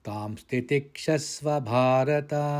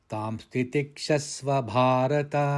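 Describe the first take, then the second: The two takes are said the same way.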